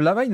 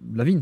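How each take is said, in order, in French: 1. Le nom se termine par un 'n' simple. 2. Le nom se termine par un son 'ny'. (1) "Lavine, c'est ce qu'il faut pas dire, justement, la mauvaise prononciation" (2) "enfin, Lavigne, pardon"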